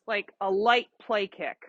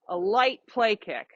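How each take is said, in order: First: Said in the usual way. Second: "light" leaned on, whole phrase slowed; slow down and weigh "light" in "A light play kick"; stress on light. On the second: Shown as a demonstration.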